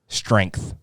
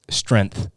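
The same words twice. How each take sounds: First: The word is said with its 'ng' sound. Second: The word is said without its 'ng' sound. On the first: The speaker calls it right. "The second, the latter" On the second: The speaker calls it wrong. "There's a G in there"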